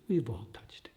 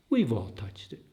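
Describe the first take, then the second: First: Soft unvoiced whisper, let it fall away; an intimate whispered echo of the line. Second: Said in the usual way. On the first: Shown as a demonstration. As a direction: breathe the words as a hushed echo.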